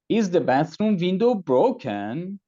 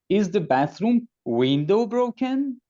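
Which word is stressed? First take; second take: broken; window. First: The word broken carries the main stress. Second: The word window carries the main stress. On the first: The question is about what happened to the window. "No, it is cracked, not broken" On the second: The question is about which part of the bathroom. "No, the bathroom door is broken"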